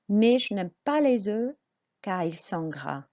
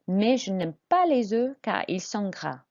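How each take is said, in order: First: It is read at a normal pace. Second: It is read quickly.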